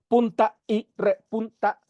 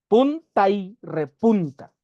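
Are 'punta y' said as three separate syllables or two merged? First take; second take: three; two. First: Punta and y stay as three separate syllables. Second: Punta and y merge into two syllables. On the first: The speaker calls it wrong. "no se debe decir" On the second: The speaker calls it right. "sino es punta y repunta. Entonces, pun, tai, esas son dos"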